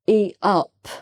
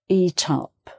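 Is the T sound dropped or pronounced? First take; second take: dropped; pronounced. First: The T is dropped, leaving a break. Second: The T is pronounced and linked to the vowel. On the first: The speaker calls it wrong. "with the T missing" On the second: The speaker calls it right. "run the two words together"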